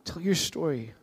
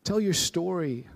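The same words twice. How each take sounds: First: "your" stressed, falling close. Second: "Tell" stressed, falling close. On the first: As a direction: lean on "your" in "Tell your story". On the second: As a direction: punch "Tell" at the start. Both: Shown as a demonstration.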